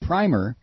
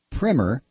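First: "Primer" with a long i, like "prime"; "Primer" with the vowel of "eye". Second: "Primer" with a short i, like "primmer"; "Primer" with the vowel of "prim". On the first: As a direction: say "Primer" to rhyme with timer. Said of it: "means a coat of paint". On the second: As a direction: say "Primer" to rhyme with trimmer. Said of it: "Is it primer or primer?". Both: Shown as a demonstration.

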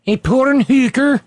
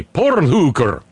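First: "A porn hooker?" pitched higher and louder in a hammed-up Eastern European accent; mock Balkan accent. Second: "porn hooker" slow and drawn out, "porn" rolled in a put-on Eastern European accent; mock Balkan accent. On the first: Host trying Melania's accent again, higher mock Balkan accent. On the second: Host trying out Eastern European accent for Melania, mock Balkan accent. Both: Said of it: "I've been saying porn hooker".

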